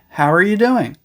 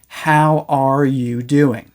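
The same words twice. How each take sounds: First: 'How are' blends into one short syllable. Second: Each word is said separately and fully. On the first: "We usually use the contraction, "hower."" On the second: "unless we're speaking really slowly, we don't usually say"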